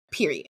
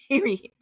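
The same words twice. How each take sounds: First: "Period." dropped low and final; emphatic full stop. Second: "Period." pitched high, then falling; emphatic repeat. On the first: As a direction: say "Period." low, closing the matter. Repeats one word for emphasis. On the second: Repeats it after a long pause. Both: Real, not acted.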